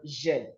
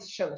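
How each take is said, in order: First: The ending starts with a voiced 'zh' sound. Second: The ending starts with a voiceless 'sh' sound. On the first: The speaker calls it right. "the S I O N makes the sound jeune" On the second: The speaker calls it wrong. "they'll call it shun ... That's incorrect"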